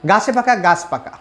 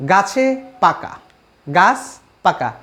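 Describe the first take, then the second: First: Said in the usual way. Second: Slow, with a pause between গাছ and পাকা; word by word. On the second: Shown as a demonstration. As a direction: draw out গাছে পাকা, then separate each word. Teacher repeats example word by word.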